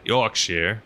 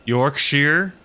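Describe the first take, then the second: First: A calmer "Yorkshire", -shir at the end; Yorkshire flatter. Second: "Yorkshire" said as yórk-shir, high and questioning; Yorkshire rising. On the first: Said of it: "Is that how I say it?". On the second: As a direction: try "Yorkshire" with a rising tune, ending in -shir. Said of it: "What's the phonetic pronunciation?". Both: Shown as a demonstration.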